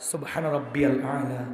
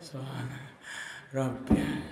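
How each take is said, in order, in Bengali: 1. বাক্যটি স্পষ্টভাবে একটানা বলা হয়, দম নিতে মাঝে থামতে হয় না। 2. বাক্যটি দম নেওয়ার জন্য থেমে থেমে ভেঙে বলা হয়। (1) "যৌবন বয়সে সবকিছু স্পষ্ট বলা যায়" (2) "একবার বলতে তিনবার দম নেবে"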